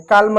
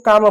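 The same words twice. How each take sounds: First: काल्म with the l sounded, "kaalma"; wrong pronunciation. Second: काम said as "kaam", l silent; correct pronunciation. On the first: Teacher shows students the wrong काल्म with a spoken l. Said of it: "काल्म नहीं पढ़ते हैं". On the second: Teacher shows students the right form: काम without the l. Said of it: "इसको काम पढ़ते हैं". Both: Shown as a demonstration.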